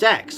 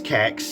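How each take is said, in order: First: The name begins with a soft S sound. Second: The name begins with a hard K sound. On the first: "it pronounces as sex" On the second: "which I pronounce Kex"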